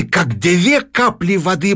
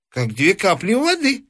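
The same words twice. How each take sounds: First: Said in the usual way. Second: Put-on high, satisfied old man; old man gloats, a touch higher; old man's voice. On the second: A narrator's reading. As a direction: say it with sly satisfaction.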